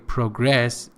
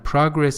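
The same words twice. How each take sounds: First: The stress is on the second syllable. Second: The stress is on the first syllable. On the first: It is used as a verb. "progress is a verb" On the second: It is used as a noun. "progress is a noun"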